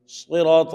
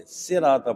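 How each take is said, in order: First: 'صراط' with heavy, rounded S; full-mouthed emphatic S on 'صراط'; correct heavy letter. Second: 'صراط' with thin, light S; common misreading. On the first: Teacher showing what people fail to say, heavy S. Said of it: "صراط نہیں پڑھتے". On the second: Teacher showing what people actually say, thin S. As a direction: flatten 'صراط' to a plain SEEN. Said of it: "صراط پڑھتے ہیں۔". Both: Shown as a demonstration.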